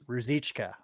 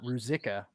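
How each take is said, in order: First: The name has a 'ch' sound before the end. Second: The name has a 'k' sound before the end. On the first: The speaker calls it right. "there's a C H at the end, a C H pronunciation" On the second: The speaker calls it wrong. "not Ruzika, like I said earlier"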